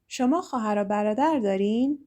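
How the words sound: The voice rises at the end. It asks whether you have siblings. "just by changing my intonation, It becomes a question"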